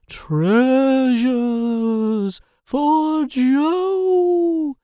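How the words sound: It is said in a put-on spooky voice. "I don't know why I'm using my spooky voice there"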